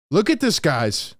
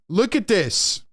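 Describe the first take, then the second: First: Said in the usual way. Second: Higher, incredulous look at this; high, amazed call to the chat; excited pointing out. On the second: Real, not acted. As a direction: insist they really look. Pointing at the coach's face.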